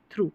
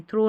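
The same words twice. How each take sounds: First: 'थ्रू' with a long OO; correct reading. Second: 'थ्रो' with an O vowel; wrong reading. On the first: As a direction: contrast it: थ्रू ending in OO. ('थ्रू', ऊ वाला सही उच्चारण) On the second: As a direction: contrast it: थ्रो ending in O. ('थ्रो', ओ वाला गलत उच्चारण) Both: Shown as a demonstration. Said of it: "थ्रो नहीं, थ्रू".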